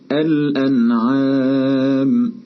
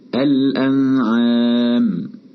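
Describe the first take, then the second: First: The n is clear and brief, without nasal hum. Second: The n is hidden, the tongue not touching. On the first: The speaker calls it right. "أظهرنا النون الساكنة" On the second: The speaker calls it wrong. "بحيث تكون النون في حالة إخفاء"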